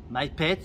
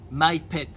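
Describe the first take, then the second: First: "Mai pet" with a rising tune, final t clear; Thai not spicy repeated. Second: "mai pet" with a falling tune, stress on "mai"; Thai not spicy. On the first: Repeating for viewers to remember, "Mai pet" rising. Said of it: "ça veut dire pas épicé". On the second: Teaching viewers to order food not spicy, "mai pet" falling. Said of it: "on dit". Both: Shown as a demonstration.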